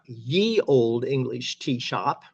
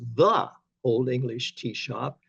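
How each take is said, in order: First: The first word begins with a y sound. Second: The first word begins with a th sound. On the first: The speaker calls it wrong. "it's not ye old English tea shop" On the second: The speaker calls it right. "It's the old English tea shop"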